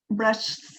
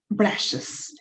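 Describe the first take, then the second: First: A bare s is added with no extra vowel. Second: An extra vowel syllable comes before the s. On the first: The speaker calls it wrong. "no, ni siquiera es cómodo" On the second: The speaker calls it right. "no le agregamos S, sino le agregamos IS, ES"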